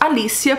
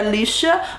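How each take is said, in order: First: The name is said with a Portuguese pronunciation. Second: The name is said with an English pronunciation. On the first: This is the pronunciation chosen for use here. "aqui falaremos Alicia" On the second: This is probably the original pronunciation. "a pronúncia provavelmente é Alicia"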